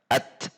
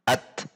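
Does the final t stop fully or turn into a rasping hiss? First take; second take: full stop; full stop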